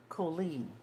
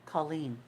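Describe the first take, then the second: First: "Colleen" said as Coh-leen, long O in the first syllable; "Colleen" as Koh-LEEN, first vowel like "go"; wrong pronunciation. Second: "Colleen" said as Cah-leen, first vowel like "father"; "Colleen" as KAH-leen, like calling someone's name; right pronunciation. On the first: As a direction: say "Colleen" with an open "oh" sound, the way the teacher did. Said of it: "My name isn't pronounced Colleen". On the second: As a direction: say "Colleen" with a short ah, as in Irish Colleen. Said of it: "like you're calling somebody Colleen". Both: Shown as a demonstration.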